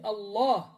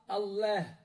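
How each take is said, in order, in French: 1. Le son a est lourd et profond. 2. Le son a est fin et léger. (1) "un A lourd, grave... Tu remplis ta bouche avec la fatha" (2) "On ne dit pas"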